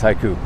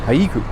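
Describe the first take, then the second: First: The name is pronounced the common anglicized way. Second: The name is pronounced the traditional Hawaiian way. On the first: This is how most people casually say it. The speaker calls it wrong. "everyone just says haiku" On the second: This is the technically correct local name. The speaker calls it right. "that's how you're supposed to say it"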